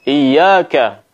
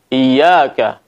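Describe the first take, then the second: No difference in how they are said.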